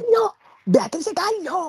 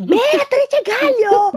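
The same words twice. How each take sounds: First: High calling shout, much higher. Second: Slow, high, loud call. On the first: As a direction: yell her full name across. Calling a sleeping friend. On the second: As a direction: stretch her name out loudly. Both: Retold or imitated.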